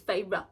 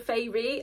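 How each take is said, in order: First: The name does not sound like fairy. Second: The name sounds like the word fairy. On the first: The speaker calls it right. "it's Feyre" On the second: The speaker calls it wrong. "I think I was saying it like like fairy"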